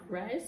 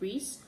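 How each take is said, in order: First: The name is said with an 'eye' vowel. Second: The name is said with an 'ee' vowel. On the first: This imitates a character's unusual, posh way of saying it. "she pronounced it in a different way" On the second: This is the usual way to say the name. "It was Reese"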